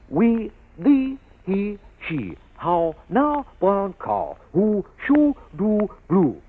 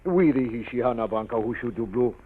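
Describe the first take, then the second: First: Lips rounded, words projected, carefully articulated. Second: Mimics Miss Downs' poor, careless diction.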